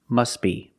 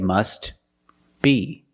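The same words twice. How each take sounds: First: The words are linked and the T is silent. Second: The words are separated and the T is pronounced. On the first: "if you link the words, you pronounce it" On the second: "If you separate the words and you pause between words, then you could say"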